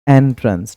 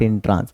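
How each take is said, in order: First: The word begins with an 'eh' vowel. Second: The word begins with an 'ih' vowel. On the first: The speaker calls it right. "एंट्रेंस not इंट्रांस" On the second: The speaker calls it wrong. "Not इंट्रांस"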